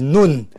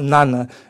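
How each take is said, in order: First: The name is said with a Hebrew-style pronunciation. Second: The name is said with an English-style pronunciation. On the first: The speaker calls it right. "The Hebrew pronunciation is Nun" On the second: The speaker calls it wrong. "the wrong pronunciation"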